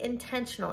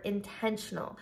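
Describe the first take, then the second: First: Said in the usual way. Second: Intentional set apart and said on its own, deliberately; emphasized word. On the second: Shown as a demonstration. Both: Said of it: "I wanna emphasize that word".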